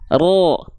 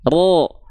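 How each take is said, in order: First: The syllable has a dark, o-like vowel. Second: The same.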